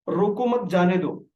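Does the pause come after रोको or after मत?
after मत. The pause comes after मत.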